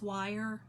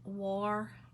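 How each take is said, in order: First: The word sounds like wire, standard style. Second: The word sounds like war, Appalachian style.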